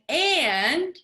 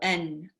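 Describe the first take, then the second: First: The word is said in full as and. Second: The word is reduced to a short n. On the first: "instead of saying and" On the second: "you have a choice of saying N"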